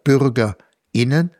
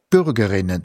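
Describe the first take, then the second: First: A short pause comes before the ending. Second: The word flows without any pause. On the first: Both women and men are meant. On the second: Only women are meant. "die Femininform"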